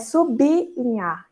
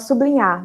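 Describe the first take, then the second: First: The b ends the first syllable, 'sub-linhar'. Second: The b runs into the l as 'blin'. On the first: The speaker calls it right. "a pronúncia correta é sublinhar" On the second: The speaker calls it wrong. "às vezes a gente até fala sublinhar"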